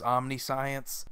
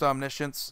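First: The ending sounds like the word 'science'. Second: The ending does not sound like 'science'. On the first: The speaker calls it wrong. "because it is basically science and Omni put together" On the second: The speaker calls it right. "but really, it's just Omniscience"

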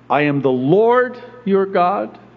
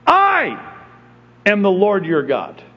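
First: The word I carries no special stress. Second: The word I is strongly stressed.

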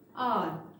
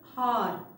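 First: The word starts with a vowel, h silent. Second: The word starts with an h sound. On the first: The speaker calls it right. "H is silent here. We should pronounce it as R" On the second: The speaker calls it wrong. "This is not this"

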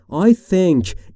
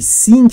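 First: The th is a soft dental hiss. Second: The th is replaced by a different sound. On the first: The speaker calls it right. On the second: The speaker calls it wrong.

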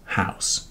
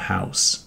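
No difference in how they are said.

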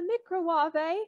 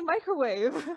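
First: The word is pronounced in an unusual way. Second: The word is pronounced in the ordinary way. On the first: The speaker calls it wrong. "why are you saying it like that?" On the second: The speaker calls it right. "Just say microwave"

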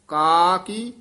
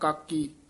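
First: The two syllables are drawn out with long vowels. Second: The two syllables are run together as one. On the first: The speaker calls it right. "ਲਮਕਾ ਕੇ ਬੋਲਣਾ ਲੰਮੀ ਆਵਾਜ਼ ਦੇ ਨਾਲ" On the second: The speaker calls it wrong. "ਇਹ ਨਾ ਤਾਂ ਇਕੱਠਾ ਕਹਿਣਾ ਕਾਕੀ"

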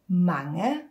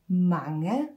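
The two takes are said the same way.

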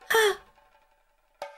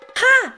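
First: The shout is fairly soft. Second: The shout is louder.

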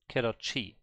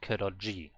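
First: The consonant before the last vowel sounds like ch. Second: The consonant before the last vowel sounds like j. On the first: The speaker calls it right. "like a CH" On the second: The speaker calls it wrong. "not Kiroji"

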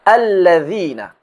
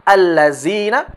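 First: The middle consonant is a soft 'th' sound. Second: The middle consonant is a 'z' sound. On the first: The speaker calls it right. "Akan tetapi" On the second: The speaker calls it wrong.

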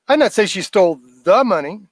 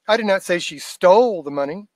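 First: The word 'money' is stressed. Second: The word 'stole' is stressed. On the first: "Might not be that money she stole" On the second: "See how I stretched the word stole out?"

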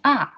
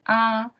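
First: The pitch falls sharply from high to low. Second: The pitch stays high and level. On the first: "the fourth one is R" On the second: "The first tone would be R"

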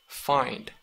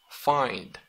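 No difference in how they are said.

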